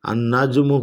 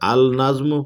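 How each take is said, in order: First: The l merges into a doubled n sound. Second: The l is pronounced clearly before the n. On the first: The speaker calls it right. "আন নাজমু পড়তে" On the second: The speaker calls it wrong. "আল নাজমু পড়া যাবে না"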